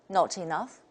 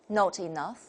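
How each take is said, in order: No difference in how they are said.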